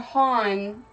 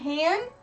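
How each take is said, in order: First: The vowel sounds like the aw in dawn. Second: The vowel sounds like the a in can. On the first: "kind of like a H A W N" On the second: "So H A N"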